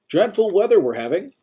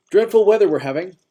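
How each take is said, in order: First: Put-on bright, high, overly chipper old-timer voice; a busybody greeting a stranger; cheerful old man. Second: Put-on high, loud chipper old-timer; cheerful old man. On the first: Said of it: "that overly optimistic voice". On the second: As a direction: repeat it with bright cheer. Old-timer repeats his cheerful line. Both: A narrator's reading.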